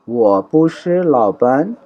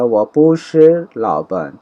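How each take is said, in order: First: وہ پوشر لاپن said slowly, rising at the end; teacher repeats the negative sentence for students; slow model Chinese. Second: وہ پوشر لاپن said slowly, leaning on پوشر; teacher slowly models the negative sentence; slow model Chinese. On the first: Drawn-out rising demo. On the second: Unhurried careful demo. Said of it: "slow negative model". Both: Shown as a demonstration.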